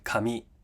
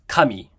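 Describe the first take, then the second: First: The pitch is high on the final syllable. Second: The pitch is not high on the final syllable. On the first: It means paper or hair. "paper or hair" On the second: It means God.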